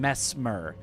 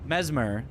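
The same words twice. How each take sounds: First: The middle consonant is a hissing S sound. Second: The middle consonant is a buzzing Z sound. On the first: The speaker calls it wrong. "you have to like completely stop the S sound" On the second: The speaker calls it right. "flows a lot better"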